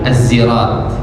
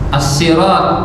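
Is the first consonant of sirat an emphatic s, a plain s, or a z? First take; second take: z; emphatic s. First: It begins with a voiced z sound. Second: It begins with a heavy, emphatic s sound. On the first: "bahkan ada juga pakai zai" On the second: "pakai sod"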